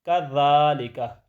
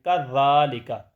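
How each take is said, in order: Both takes have the same delivery.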